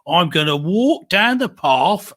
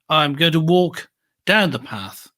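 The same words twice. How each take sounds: First: It has an Essex accent with lengthened sounds. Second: It has a Midlands accent with shorter sounds. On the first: "They say" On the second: "I coming from the Midlands would say"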